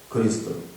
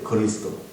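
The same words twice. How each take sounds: First: The syllables are pronounced unclearly and slurred. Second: Each syllable is pronounced clearly and distinctly. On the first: The speaker calls it wrong. "이렇게 하는 것도 맞지 않죠" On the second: The speaker calls it right. "그리스도인데"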